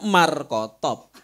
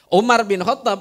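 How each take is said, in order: First: The name is clipped to two short parts. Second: The full name is said with all its parts. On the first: This is how Javanese people say the name. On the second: This is the original Arabic name.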